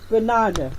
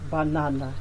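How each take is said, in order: First: The stress falls on the second syllable. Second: The pitch stays level with no stressed syllable. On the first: The speaker calls it right. "the primary stress is here. Na" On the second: The speaker calls it wrong. "the pitch will go the same way from the beginning to the end. You will not know where to stress"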